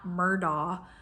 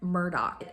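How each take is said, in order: First: The name has its usual, standard pronunciation. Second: The name has a local, regional pronunciation. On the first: The speaker calls it wrong. "and not Murdaugh" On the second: The speaker calls it right. "but Murdoch ... some local accent thing"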